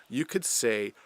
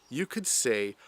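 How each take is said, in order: Both takes have the same delivery.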